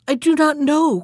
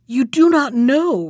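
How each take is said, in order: First: Higher-pitched, mildly fearful denial; frightened cry. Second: Higher, louder echo of her denial; accusing retort. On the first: Poor wife answering her husband about the key, frightened cry. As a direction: cry it out as a frightened woman, understated. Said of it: "cried the poor woman, paler than death". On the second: Bluebeard confronting his wife over the key, accusing retort. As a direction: throw it back as an accusation. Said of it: "replied Bluebeard". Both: A narrator's reading.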